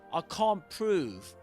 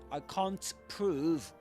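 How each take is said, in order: First: The T in can't is fully pronounced. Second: The same.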